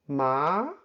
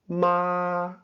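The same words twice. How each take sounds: First: The pitch starts in the middle and rises. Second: The pitch stays high and level. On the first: "starts from the middle of your voice and rises" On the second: "The high flat tone is, of course, high and flat. It's also called the first tone"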